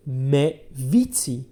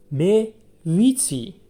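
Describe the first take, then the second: First: Said in the usual way. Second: "Me vici" said slowly and high, each syllable clear; teacher's slow high demo of "Me vici"; slow model phrase. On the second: Shown as a demonstration. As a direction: model "Me vici" slowly on a raised pitch for the class to copy. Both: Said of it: "Vici is a new verb".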